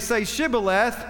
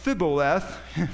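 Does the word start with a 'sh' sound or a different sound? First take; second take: sh; different. First: The word starts with a clear 'sh' sound. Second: The word starts without the 'sh' sound. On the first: The speaker calls it right. "So they would say Shibboleth" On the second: The speaker calls it wrong. "They wouldn't get it right"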